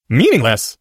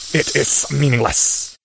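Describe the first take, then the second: First: Put-on louder, startled boy; surprised. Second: Slow serpent hiss. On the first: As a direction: blurt it in surprise. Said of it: "Harry said aloud in surprise". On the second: Snake dismissing. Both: A narrator's reading.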